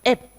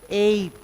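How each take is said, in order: First: The vowel is short. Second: The vowel is long. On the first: The speaker calls it wrong. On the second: The speaker calls it right.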